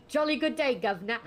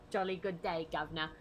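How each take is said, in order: First: Loud, high hammed-up British accent; posh British greeting with a hammed-up grin. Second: A quieter, lower British accent take; softer British accent. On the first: Showing off the British accent for a class skit, loud. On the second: Trying the British accent line again, more quietly. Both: Shown as a demonstration. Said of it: "put a British accent".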